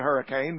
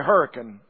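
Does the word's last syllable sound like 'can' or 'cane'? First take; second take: cane; can. First: The last syllable sounds like 'cane'. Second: The last syllable sounds like 'can'. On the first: This is how the spelling suggests it is said. "They don't say hurricane" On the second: This is how local people say the name. "If you're from over there, they say hurricane"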